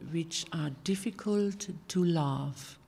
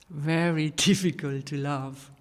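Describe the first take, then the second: First: Said in the usual way. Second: Very leaned on, with a laugh; stress on very. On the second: Shown as a demonstration. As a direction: push the word Very, laughing through it.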